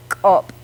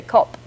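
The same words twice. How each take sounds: First: KOP with a loud popped K and a catch; ejective k. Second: KOP with just an ordinary English K; plain English k. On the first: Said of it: "It has that extra little catch". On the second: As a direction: say KOP without any catch on the K. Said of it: "with just a K". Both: Shown as a demonstration.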